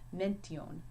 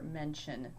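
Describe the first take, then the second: First: The middle consonant is a hard 't' sound. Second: The middle consonant is a soft 'sh' sound. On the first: This is the Latin way of saying it. "if I were to pronounce mention as a Latin word, it would be mention. So always that t sound" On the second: This is the English way of saying it. "It's never going to do ch or ch, like is in nation or mention that we have"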